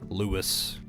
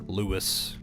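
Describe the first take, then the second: First: The name is said with a blunt English pronunciation. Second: The same.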